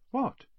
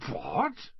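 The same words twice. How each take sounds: First: Short, high-pitched "What?"; quick boyish prompt for more; curious question. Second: Drawn-out, high "What?" rising at the end; stunned boyish disbelief; incredulous question. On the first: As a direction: ask "What?" high and eager. Boy curiously prompts the headmaster. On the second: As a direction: stretch "What?" upward in astonishment. Boy stunned by the revelation. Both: A narrator's reading.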